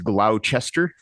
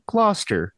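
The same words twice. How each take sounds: First: The name is pronounced the way it is spelled. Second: The name is pronounced differently from its spelling. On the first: This is how the spelling suggests it is said. The speaker calls it wrong. "it looks like it's Gloucester" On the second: This is how it is actually said. The speaker calls it right. "the little A I woman with the lips told me Gloucester"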